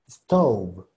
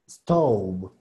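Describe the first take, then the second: No difference in how they are said.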